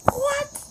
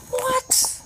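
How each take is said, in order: First: Squeaky What, very high and softer; real stunned squeak, quieter; disbelief. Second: Squeaky what, very high; real stunned squeak; disbelief. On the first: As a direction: squeak it again, fading. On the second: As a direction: squeak it in pure amazement. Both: Real, not acted. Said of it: "amazed at the luck".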